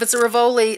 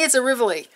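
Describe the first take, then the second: First: Rivoli is said not rhyming with Tivoli. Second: Rivoli is said to rhyme with Tivoli. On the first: This is an accepted alternative pronunciation. "But if it's a Rivoli, that's okay too" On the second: This is the speaker's preferred pronunciation. "so for me, it's a Rivoli"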